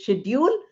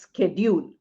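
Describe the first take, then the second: First: The word begins with an 'sh' sound. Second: The word begins with an 'sk' sound. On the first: This is the older, British pronunciation. "The pronunciation which was earlier is schedule, sh sound" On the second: This is the American pronunciation. "the American version is schedule, sk sound"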